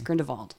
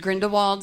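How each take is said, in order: First: The name is said with a German pronunciation. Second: The name is said with an English pronunciation. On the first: The speaker calls it right. "it's Grindelwald" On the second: The speaker calls it wrong. "Even though we heard Grindelwald the entire time through the Harry Potter universe, scratch that out of your brain"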